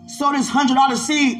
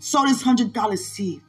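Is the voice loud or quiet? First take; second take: loud; quiet. First: It is yelled loudly. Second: It is said at a calmer, quieter volume.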